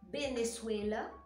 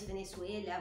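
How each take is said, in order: First: The first letter is said with a B sound. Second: The first letter is said with a V sound. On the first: Most speakers say it this way. "falam com o som do B" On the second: Only some speakers in some places say it this way. "falando com o som de V"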